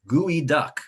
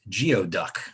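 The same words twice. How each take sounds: First: The word is pronounced unlike its spelling suggests. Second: The word is pronounced just as it is spelled. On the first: The speaker calls it right. "the way you pronounce that word is geoduck" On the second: The speaker calls it wrong. "many of you read it as geoduck"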